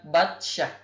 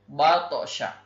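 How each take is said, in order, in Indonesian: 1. Bunyi t dipotong datar. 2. Bunyi t dilepas dengan memantul. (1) "bukan batsyah" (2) "maka dibacanya adalah bato, batosha"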